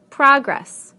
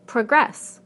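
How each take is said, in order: First: Progress as a noun, PROG-ress; first-syllable stress. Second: Progress as a verb, pro-GRESS; second-syllable stress. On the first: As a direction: hit the first syllable of Progress, then fall. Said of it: "we stress the first syllable in the nouns". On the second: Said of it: "the second syllable in the verbs". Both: Shown as a demonstration.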